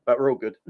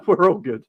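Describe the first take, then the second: First: Said in the usual way. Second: Laughing, louder and higher; relieved laugh through the line. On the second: Real, not acted. Laughs with relief after son's freak-out.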